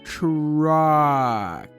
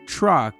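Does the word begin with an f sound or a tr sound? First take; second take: tr sound; f sound. First: The word begins with a tr sound. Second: The word begins with an f sound. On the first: The speaker calls it right. "you gotta say it like this" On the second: The speaker calls it wrong. "he's swearing at me"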